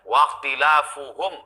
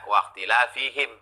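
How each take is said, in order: First: The vowel after the f is u. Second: The vowel after the f is i. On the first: The disagreement is more strongly condemned. The speaker calls it right. "begitu dibaca waqtilafuhum ablagh, lebih mencela" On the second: The disagreement is only mildly condemned. The speaker calls it wrong. "berbeda kalau dibaca waqtilafihim, enggak terlalu tercela"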